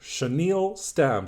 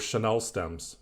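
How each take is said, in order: First: The first word ends with a long 'neel' sound. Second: The first word ends with a short 'nell' sound. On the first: The speaker calls it right. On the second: The speaker calls it wrong.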